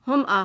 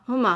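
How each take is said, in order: The two takes are said the same way.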